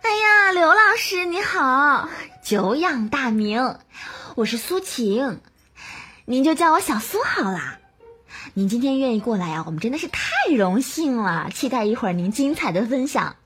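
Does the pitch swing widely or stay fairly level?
swings widely. The pitch jumps sharply high and low throughout.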